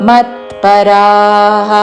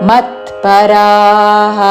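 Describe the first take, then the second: No difference in how they are said.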